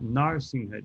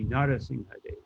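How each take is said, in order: First: The r runs straight into the s. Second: A short vowel separates the r and s. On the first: The speaker calls it wrong. "it's not Narsimhadev" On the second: The speaker calls it right. "it would be Narasimhadev"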